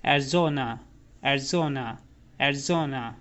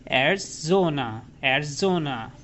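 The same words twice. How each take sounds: First: एरिज़ोना said short, as एर्ज़ोना, quick and even; quick correct pronunciation. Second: एरिज़ोना stretched slowly, the wrong way; wrong drawn-out pronunciation. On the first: Teacher models the right quick एरिज़ोना for students. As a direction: say एरिज़ोना briskly in one go. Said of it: "हम पढ़ेंगे". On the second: Teacher shows the mistake of stretching एरिज़ोना. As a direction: drag out एरिज़ोना too long on purpose. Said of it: "बहुत लंबा जब खींचेंगे इसको, तो गलती करेंगे". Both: Shown as a demonstration.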